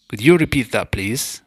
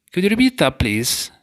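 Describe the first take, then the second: First: Said in the usual way. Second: A higher, eager request; bright high ask. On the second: Shown as a demonstration. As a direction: lift the pitch high on repeat. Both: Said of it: "If you'd like someone to say a word ... again".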